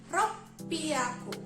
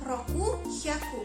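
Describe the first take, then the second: First: It is said with a double p. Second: It is said with a k and an h. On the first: The speaker calls it right. "pengucapannya berbeda. Jadi ropiaku, double P ya" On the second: The speaker calls it wrong. "Kalau tidak spesial, dia menjadi enam dan seratus"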